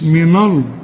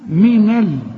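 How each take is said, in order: First: The L sound is heavy and thick. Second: The L sound is light and thin. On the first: The speaker calls it wrong. "مش من ال" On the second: The speaker calls it right. "اللام دائما مرققة"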